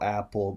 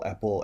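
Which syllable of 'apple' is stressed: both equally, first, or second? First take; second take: both equally; second. First: Both syllables get the same stress. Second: The stress is on the second syllable. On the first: "apple with the same accent" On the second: "where they'll accent the second syllable"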